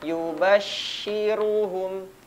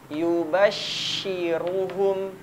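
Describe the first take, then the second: Both takes have the same delivery.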